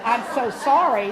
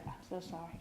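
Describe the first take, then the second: First: Exasperated. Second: Soft, barely voiced condolence; murmured sympathy. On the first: Retold or imitated. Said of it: "surely you can think of something else". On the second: Johnny murmuring to each mourner, very soft. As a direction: breathe it out quietly. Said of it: "Thousand times I heard".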